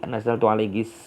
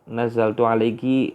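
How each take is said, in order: First: The phrase ends with 'kis', an added 's'. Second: The phrase ends with a plain 'ki' sound. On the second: This is the standard form.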